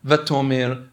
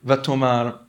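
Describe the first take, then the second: First: "vatomer" with an e in the last syllable; vowel contrast, -mer. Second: "vatomar" with an a in the last syllable; vowel contrast, -mar. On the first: Teacher showing students a nikud slip, "vatomer" ending in -mer. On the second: Teacher showing students a nikud slip, "vatomar" ending in -mar. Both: Shown as a demonstration. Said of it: "mistake on the nikud".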